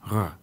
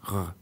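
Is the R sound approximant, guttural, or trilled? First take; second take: guttural; guttural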